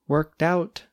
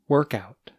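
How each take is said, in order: First: The stress falls on out. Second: The stress falls on work.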